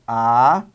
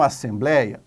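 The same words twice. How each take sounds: First: Separated into syllables. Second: Said in the usual way. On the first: Shown as a demonstration. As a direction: sound out "Assembleia" as a, ssem, blei, a. ("Assembleia" bem devagar, sílaba por sílaba) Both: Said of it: "Vamos separar em sílabas".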